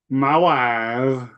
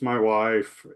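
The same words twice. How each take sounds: First: It is said in a Borat impression voice. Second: It is said in his normal voice.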